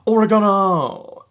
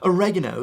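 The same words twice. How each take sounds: First: It is said in a non-American accent. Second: It is said the American way. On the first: "You have to do it with that accent as well" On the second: "like they do in the U S"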